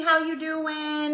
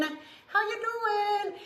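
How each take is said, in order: First: Said in the usual way. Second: "How you doing?" higher, slow, stretching out "doing"; sing-song greeting. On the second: Shown as a demonstration. Greeting a viewer in chat, high slow sing-song.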